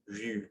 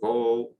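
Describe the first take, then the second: First: The vowel is a front rounded u sound. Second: The vowel is an o sound. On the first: The speaker calls it right. "we say vu" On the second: The speaker calls it wrong. "or vo"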